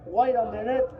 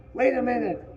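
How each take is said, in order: First: Put-on high boyish call, rising at the end; fat boy calling. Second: Put-on high boyish call, falling at the end; fat boy calling. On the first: Fat boy calls again to the fair boy, high boyish voice. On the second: Fat boy calls from the undergrowth, high boyish voice. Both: A narrator's reading.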